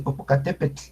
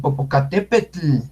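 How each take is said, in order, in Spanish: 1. El tl final es suave y ligero. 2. El tl final se exagera mucho. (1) "ese T L no se exagera tanto, es Popocatépetl. Suavecita esa L" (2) "Los locutores cuando dicen"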